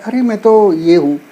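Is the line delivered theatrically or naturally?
naturally. It is said in a plain conversational way.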